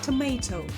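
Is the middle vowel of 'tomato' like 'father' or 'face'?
face. The middle vowel sounds like the one in 'face'. "typically pronounced with an A sound like in face"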